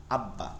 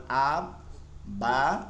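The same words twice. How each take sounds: First: "আব্বা" as one word, doubled b, falling; joined reading. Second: "আব, বা" split in two with a pause; syllable by syllable. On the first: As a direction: read "আব্বা" joined up, dropping low at the end. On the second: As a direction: break "আব, বা" apart, second part rising and held. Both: Shown as a demonstration. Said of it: "এভাবে প্রতিটা উদাহরণ আপনারা এখান থেকে পড়ে নেবেন".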